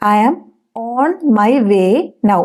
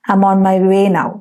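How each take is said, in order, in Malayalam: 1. ഓരോ വാക്കും വെവ്വേറെയാണ് പറയുന്നത്, "I am" പൂർണ്ണമായി. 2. വാക്കുകൾ ഒന്നിച്ചൊഴുകുന്നു, "I'm" ചുരുക്കി പറയുന്നു. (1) "എന്ന് പറയരുത്" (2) "അതൊരു പാട്ട് പോലെ അങ്ങ് വായിൽ വരണം"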